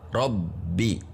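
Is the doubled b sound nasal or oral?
oral. The doubled b is held with no nasal sound. The speaker calls it right. "Jadi tidak ada suara hidung"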